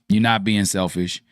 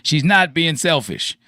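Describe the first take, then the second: First: It is said at normal volume. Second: It is said more loudly.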